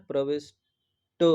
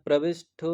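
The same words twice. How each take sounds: First: प्रविष्ट slowly, ending in a plain 'tt'; correct unaspirated ending. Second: प्रविष्ट ending in a puffed 'ttho'; wrong aspirated ending. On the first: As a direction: separate pravish from a final unpuffed 't'. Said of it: "तो ही सही है". (प्रविष्ट, धीरे, अंत में 'ट') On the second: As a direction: aspirate the last sound of प्रविष्ट as 'shth'. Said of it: "प्रविष्ट गलत है". (प्रविष्ट को 'प्रविष्ठ' बोलकर) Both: Shown as a demonstration.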